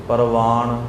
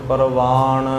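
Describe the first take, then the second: No difference in how they are said.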